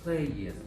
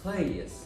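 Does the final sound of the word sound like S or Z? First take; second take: Z; S. First: The word ends with a buzzing Z sound. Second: The word ends with a hissing S sound. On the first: The speaker calls it right. "the S coming after this letter will be pronounced as a Z sound" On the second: The speaker calls it wrong. "not an S sound"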